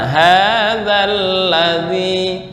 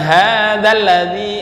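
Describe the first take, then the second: First: It is slow, with the doubled consonant held long. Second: It is rushed, with the doubled consonant cut short. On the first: The speaker calls it right. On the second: The speaker calls it wrong. "Bukan hadzal ladzi. Nah, itu namanya buru-buru"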